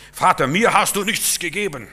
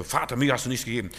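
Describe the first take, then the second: First: Loud, higher complaint of a jealous son; whiny older brother. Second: Said in the usual way. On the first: Acted. Older brother loudly complains to his father, resentful. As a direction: wail it like a wronged older brother. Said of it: "der hätte auch glücklich sein können". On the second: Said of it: "Du siehst sowas so".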